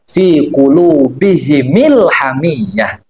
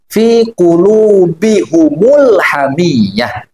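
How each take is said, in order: First: Both the h and m carry an i vowel. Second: Both the h and m carry a u vowel. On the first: This is one recognized reading of the verse. "dengan mengkasrohkan mim jamaknya" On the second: This is another recognized reading of the verse. "dengan mendombahkan mim jamak"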